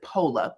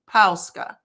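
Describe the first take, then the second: First: The word ends in a plain vowel. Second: The word ends with a '-ska' syllable. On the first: The speaker calls it wrong. "we pronounce it pola, P O L A. Which is a common pronunciation, but still wrong" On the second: The speaker calls it right. "The correct way to pronounce it is Pauska"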